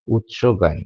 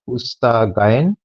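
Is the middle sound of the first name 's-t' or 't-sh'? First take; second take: t-sh; s-t. First: The first name has a t before the sh. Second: The first name has an s before the t. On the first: The speaker calls it right. "That's that's better, obviously" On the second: The speaker calls it wrong. "I guess it's Usta Gayen"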